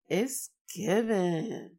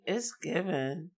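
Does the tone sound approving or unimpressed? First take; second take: approving; unimpressed. First: The tone sounds warm and admiring. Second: The tone sounds skeptical and unimpressed. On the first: The speaker approves of or admires something. "that means approval or admiration of some sort" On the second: Something is doing too much or is over the top. "that means it's doing too much or something about it is over the top"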